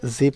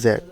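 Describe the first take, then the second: First: The letter is said as zee. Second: The letter is said as zed. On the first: "American English পড়ি ... জি পড়ব" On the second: "British উচ্চারণ হচ্ছে জেড"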